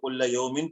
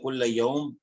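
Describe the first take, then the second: First: The last word ends with an added -in sound. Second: The last word stops short without the -in ending. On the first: "हम तनवीन पढ़ेंगे तो कुल्ल यौमिन पढ़ेंगे" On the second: "तनवीन नहीं पढ़ेंगे तो कुल्ल यौम सा, साकिन करके पढ़ेंगे"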